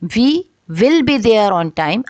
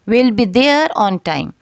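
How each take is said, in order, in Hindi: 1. यह दो अलग शब्दों की तरह बोला जाता है, "we will"। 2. यह एक ही शब्दांश में छोटा होकर बोला जाता है, "we'll"। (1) "अनकॉन्ट्रैक्टेड इसकी फॉर्म है" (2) "कॉन्ट्रैक्टेड फॉर्म है"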